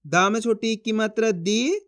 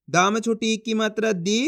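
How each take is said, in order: Both takes have the same delivery.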